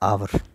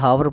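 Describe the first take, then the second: First: The word begins with a plain vowel sound. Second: The word begins with an audible h sound. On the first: The speaker calls it right. "आ की आवाज़ आ गई" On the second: The speaker calls it wrong. "कुछ बच्चे इसे हावर पढ़ेंगे, जबकि हावर नहीं होता"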